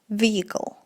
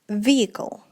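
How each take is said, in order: The two takes are said the same way.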